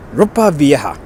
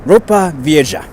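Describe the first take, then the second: No difference in how they are said.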